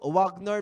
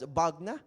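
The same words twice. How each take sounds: First: The name is said as it is spelled. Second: The name is said in its foreign pronunciation. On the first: "Pag binasa mo" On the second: "they pronounce that as"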